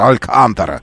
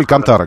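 First: The word is said in a Spanish manner. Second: The word is said in the usual Russian manner. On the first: This is how a Spanish-loving acquaintance said it. "он произносил на испанский манер" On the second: This is the generally accepted pronunciation. "Но вообще Алькантара, конечно, да"

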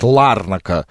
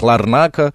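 First: The stress is on the first syllable. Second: The stress is on a later syllable. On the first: This is how Ukrainians say the name. The speaker calls it wrong. "украинцы называют Ларнака" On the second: This is how Cypriots say the name. The speaker calls it right. "сами киприоты называют Ларнака"

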